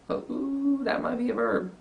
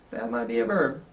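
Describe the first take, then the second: First: Much higher "Oh, ooh" of feigned discovery; playful teacher surprise; mock surprise. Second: Said in the usual way. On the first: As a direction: act delighted to spot a verb.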